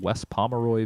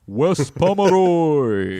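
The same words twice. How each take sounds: First: It is said in his normal speaking voice. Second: It is said in a Smash Brothers announcer voice.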